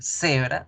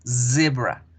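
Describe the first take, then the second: First: The word starts with a hissing S sound. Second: The word starts with a buzzing Z sound. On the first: The speaker calls it wrong. "no vamos a decir" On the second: The speaker calls it right.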